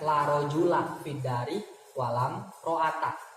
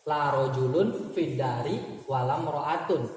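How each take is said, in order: First: The nouns end in a short -a without nunation. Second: The nouns end in -un with nunation. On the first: The particle la governs the noun. "Isimnya jangan kasih tanwin ya" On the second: The particle la does not govern the noun. "Laknya tidak beramal"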